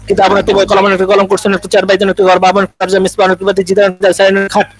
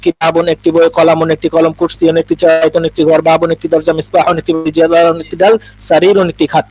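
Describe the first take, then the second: First: It is said fast in one breath. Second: It is said slowly and carefully.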